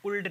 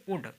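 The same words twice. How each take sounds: First: उल्ड with the L sounded; L pronounced. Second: उड with no L sound; silent L. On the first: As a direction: say उल्ड, voicing L before D. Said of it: "उल्ड नहीं कहेंगे इसे". (उल्ड में ल का उच्चारण करके) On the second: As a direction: say उड, vowel straight into D. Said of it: "इसे आप कहेंगे उड". (उड, बिना ल की आवाज़ के) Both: Shown as a demonstration.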